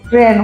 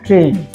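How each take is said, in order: First: The vowel is an open 'ai' sound. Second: The vowel is a closed 'e' sound. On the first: The speaker calls it wrong. "आप गलती से दो मात्राएं लगा दें तो वो ट्रेन हो जाएगा, लेकिन वो गलत हो जाएगा" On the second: The speaker calls it right. "छोटे ए की मात्रा ट्रेन"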